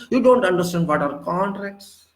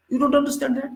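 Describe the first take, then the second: First: Said in the usual way. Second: "don't" jumps much higher, scornful repeat; mocking jab. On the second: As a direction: throw "You don't understand that" back at him, higher and mocking. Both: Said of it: "Should I hire a lawyer for you?".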